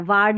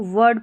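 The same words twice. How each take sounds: First: वार्ड with a wrongly long "aa" vowel. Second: वर्ड with a short neutral vowel. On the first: Teacher showing what not to read, वार्ड with long "aa". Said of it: "वार्ड नहीं पढ़ेंगे". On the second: Teacher correcting Edward's ending, वर्ड with short vowel. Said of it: "इसको वर्ड पढ़ना है". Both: Shown as a demonstration.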